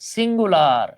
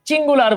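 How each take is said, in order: First: The word begins with an s sound. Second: The word begins with a ch sound. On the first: The speaker calls it right. "আমরা এইভাবে বলবো" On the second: The speaker calls it wrong. "ওই চিঙ্গুলার বলে না কিন্তু"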